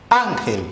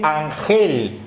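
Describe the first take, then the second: First: "Ángel" with the stress on Án, falling after it; stress on first syllable. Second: "ángel" misread as an-GEL, stress on the last syllable; wrong final stress. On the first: Teacher models the stressed syllable of Ángel, first-syllable stress on "Ángel". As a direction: hit Án in "Ángel", let gel drop. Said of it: "Entonces mi sílaba tónica, am". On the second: Teacher reads "ángel" without its accent mark, stressed an-GEL. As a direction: punch gel in "ángel", slowly. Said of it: "Si lo dejo así, se lee". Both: Shown as a demonstration.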